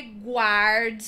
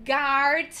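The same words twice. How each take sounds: First: "guard" said wrongly as "gward", slow; the common mistake, "gward" with a w; wrong pronunciation. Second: "guard" said as "gard", no w sound; silent u. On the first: ("guard" errado, com som de U) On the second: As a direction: say "guard" with a hard g and no u. ("guard" sem o som do U) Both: Shown as a demonstration. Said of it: "não é guard".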